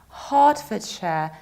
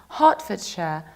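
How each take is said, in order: The two takes are said the same way.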